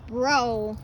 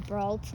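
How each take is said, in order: First: The final consonants are silent. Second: The final consonants are pronounced. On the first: The speaker calls it right. "the last name is Bro" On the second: The speaker calls it wrong. "people would basically just say Brelt"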